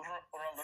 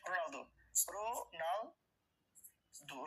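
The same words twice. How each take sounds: First: Said in the usual way. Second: রোনালদো drawn out very slowly, syllable by syllable; a teacher spelling out each syllable of রোনালদো for the class; split into syllables. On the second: Shown as a demonstration. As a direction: stretch out রোনালদো as রো-নাল-দো, slow and deliberate. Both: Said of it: "তিন syllable এরকম আর কি।".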